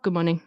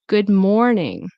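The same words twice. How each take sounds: First: The R is dropped and the vowels rushed. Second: The R is sounded and the O drawn out. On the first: The speaker calls it wrong. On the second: The speaker calls it right. "You want to pronounce the R. You want to give the O. You know, the spotlight"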